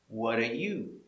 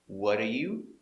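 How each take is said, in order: No difference in how they are said.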